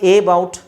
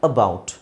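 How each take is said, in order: First: The word starts with an 'eh' vowel. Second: The word starts with a short, weak 'uh'. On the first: The speaker calls it wrong. "ಎ ಬೌಟ್ ಅಂತ ಹೇಳೋ ಹಾಗಿಲ್ಲ" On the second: The speaker calls it right. "ಎ ಅನ್ನೋ ಅಕ್ಷರದ್ದು ಅ sound ಇದೆ"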